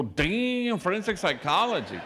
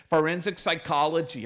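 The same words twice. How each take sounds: First: High, loud, amazed repeat; impressed by the answer, louder and higher. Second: "Forensic psychology" said quickly and flatly, falling at the end; quick deadpan answer. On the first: Priest impressed by the girl's plan, loud surprise. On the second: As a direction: snap back "Forensic psychology" matter-of-factly, no pause. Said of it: "she was very quick". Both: Retold or imitated.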